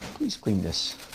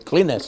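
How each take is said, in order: First: It is said in a nice, polite way. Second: It is said in a curt, bossy way.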